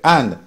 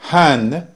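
First: The word starts with no h sound. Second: The word starts with an audible h sound. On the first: "va a decir and" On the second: "En lugar de decir hand para mano"

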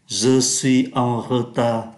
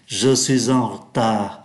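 First: The first vowel of retard is fully pronounced. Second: The first vowel of retard is quickly dropped. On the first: The speaker calls it wrong. "Thay vì đọc như vậy" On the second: The speaker calls it right. "người ta đọc rất nhanh"

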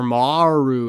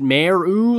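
First: The first syllable sounds like 'mar', rhyming with car. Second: The first syllable sounds like 'mare', rhyming with air. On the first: "like the word R" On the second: "like a female horse"

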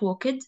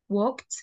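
First: The ending is an extra 'id' syllable. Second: The ending is a short 't' sound. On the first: The speaker calls it wrong. "not walked" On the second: The speaker calls it right. "say it as te"

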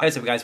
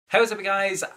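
First: It is said with calmer, lower energy. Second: It is said with very high energy.

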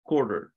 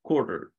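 First: It is said in an American accent. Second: It is said in an American accent.

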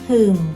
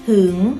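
First: The tone stays low through the syllable. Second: The tone rises through the syllable. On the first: "เอก" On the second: "อักษรสูงนะคะผันได้3 เสียงเสียงจัตวา"

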